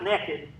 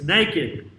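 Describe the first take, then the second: First: The first syllable sounds like 'neck'. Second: The first syllable sounds like 'nake'. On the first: The speaker calls it wrong. "It's not naked. That's what holds your head up" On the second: The speaker calls it right. "It's naked"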